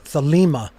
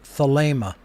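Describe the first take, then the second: First: The second vowel is a long ee sound. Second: The second vowel is a long ay sound. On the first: The speaker calls it wrong. "an iota" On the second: The speaker calls it right. "It is a long A sound"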